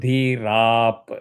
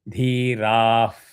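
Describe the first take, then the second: First: It ends with the lips fully closed, a p. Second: It ends with the lower lip touching the teeth. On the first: "If you close it, it becomes dhirap. Only P" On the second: "Don't touch your bottom lip to the teeth. That becomes F"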